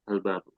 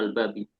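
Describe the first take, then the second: First: The word ends with the vowel u. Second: The word ends with the vowel i. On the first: The speaker calls it right. "Tapi al-babu" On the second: The speaker calls it wrong. "nggak boleh"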